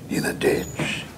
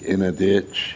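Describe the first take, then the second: First: It is said with excited, joyful energy. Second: It is said flatly, without excitement. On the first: Spending the night in a ditch is something new and exciting. "you were so excited about the ditch because it was something new" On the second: Spending the night in a ditch is something bad. "instead of saying"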